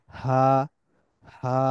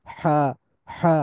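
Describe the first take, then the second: First: হা from deep inside the throat; small Arabic হা, breath unblocked; deep light হা. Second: হা constricted in the middle of the throat; big Arabic হা with a weighty, squeezed h; heavy mid-throat হা. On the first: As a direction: let হা out freely from low in the throat. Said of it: "এটা কিন্তু একটু বেশি ভেতর থেকে আসতেছে". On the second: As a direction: push হা through a partial block. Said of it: "এটা একটু বাধা পাইতেছে". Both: Shown as a demonstration.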